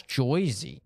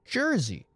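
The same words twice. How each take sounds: First: "Joyzy" slowly, with a clear "oy"; Joyzy for Jersey. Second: "Jersey" slowly, with a clear "er"; standard Jersey. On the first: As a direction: stretch it out as "Joyzy", JOY-zee. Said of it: "Joyzy would be J O Y". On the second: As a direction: say "Jersey" as JUR-zee, no "oy". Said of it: "You're from Jersey". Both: Shown as a demonstration.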